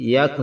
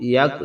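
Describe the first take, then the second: Both takes have the same delivery.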